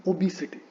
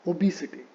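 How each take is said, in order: Both takes have the same delivery.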